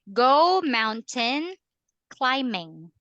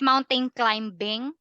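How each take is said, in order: First: The b in climbing is silent. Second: The b in climbing is pronounced. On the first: The speaker calls it right. "Silent B" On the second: The speaker calls it wrong. "Is it mountain climbing?"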